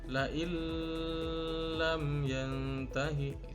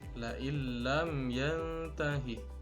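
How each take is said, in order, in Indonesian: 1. Dibaca panjang dengan dengung sengau yang ditahan. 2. Dibaca pendek tanpa dengung sengau. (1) "dibaca panjang dengan disertai dengung" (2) "tapi cara bacanya adalah"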